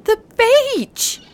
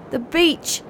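First: High, drawn-out howl; dog-like cry of sudden realisation. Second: Mildly excited, lifted in pitch; a dawning flicker of excitement; excited thought. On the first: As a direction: howl it as it suddenly dawns on you. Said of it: "he howled in sudden realisation". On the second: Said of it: "thought Shaggles excitedly". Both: A narrator's reading.

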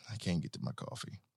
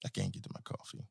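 First: Much softer and lower; sulking over the coffee out of reach; quiet. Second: Whispered, much lower; whispering a complaint about the coffee. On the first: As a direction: mutter it to yourself. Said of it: "repeated, quieter". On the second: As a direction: breathe it out in a hush. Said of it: "repeated as whisper". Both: Real, not acted.

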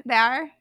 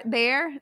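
First: "there" in a tentative Irish accent, vowel opened toward "thar"; attempted Irish accent. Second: Said in the usual way. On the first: Shown as a demonstration. Friend recalling her Irish accent, "there" tried in Irish. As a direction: try "there" with an Irish lilt on the R. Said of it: "I got a good in". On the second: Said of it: "It was, like, the O R".

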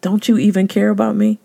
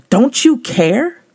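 First: Annoyed Martha. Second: Slow, high, whiny complaint to Jesus; annoyed Martha. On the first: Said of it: "she looked at Jesus in her annoyance and said". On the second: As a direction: drag out the complaint, hurt and annoyed. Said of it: "she looked at Jesus in her annoyance". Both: Retold or imitated.

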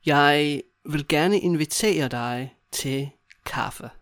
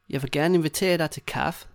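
First: Slow, broken into small chunks; walk a learner through it slowly; slow demonstration. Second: Said in the usual way. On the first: Shown as a demonstration. Teacher modelling a coffee invitation to a friend, slowly.

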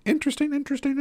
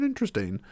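First: Silly high voice. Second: Said in the usual way. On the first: Pretend. Toying with the word.

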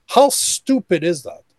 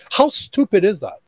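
First: Slow, deliberate how stupid is that; repeating it slowly so it sinks in; slow emphatic repeat. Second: Higher incredulous disbelief on how; a man marvelling at his own foolishness. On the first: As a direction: lean on each word to drive it home. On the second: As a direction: scoff at your own past stupidity, voice going up. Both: Shown as a demonstration.

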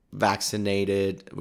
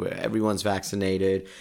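First: Drawn-out slow vaccinated; vaccinated said long and slow. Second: Said in the usual way. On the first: Shown as a demonstration. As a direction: stretch out vaccinated slowly.

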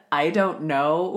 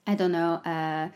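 First: Imitating a French-accented mumble; mock French accent, drawn out. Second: Slightly lower, French-tinged mumble; French accent. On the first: Teasing the co-host about her French, mock French accent. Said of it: "with a French accent". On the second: Shown as a demonstration. Showing what gets away with a French accent, light French accent. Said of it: "I don't know," with a French accent".

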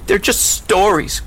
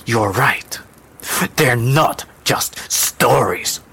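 First: Put-on high, slow protesting child; girl's cry. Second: Slow, measured low tone. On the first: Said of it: "cried the girl". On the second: Acted. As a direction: agree slowly, with weight. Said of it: "the woman said in a low tone".

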